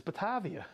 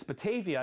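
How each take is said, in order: First: "Batavia" with the middle A open like "father", bah-TAH-vee-ah; Batavia with broad A. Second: "Batavia" with the middle A said like "day", bah-TAY-vee-ah; Batavia with long A. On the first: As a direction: say "Batavia" as bah-TAH-via, the way you always do. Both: Retold or imitated. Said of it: "You always say Batavia".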